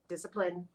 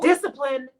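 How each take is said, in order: First: Soft repeat. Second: Proud cheer. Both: Real, not acted. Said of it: "I've been consistently checking it".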